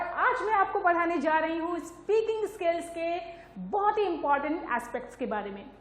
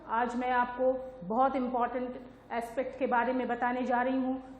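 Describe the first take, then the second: First: It is said with a varied tone. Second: It is said in a flat monotone.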